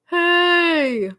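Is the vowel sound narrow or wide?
narrow. The vowel is pinched, with a narrow mouth. The speaker calls it wrong. "with a narrow mouth"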